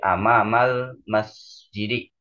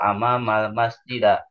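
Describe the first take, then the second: First: The final word ends in an i vowel. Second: The final word ends in an a vowel. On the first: The speaker calls it right. "harus dibaca kasroh" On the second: The speaker calls it wrong.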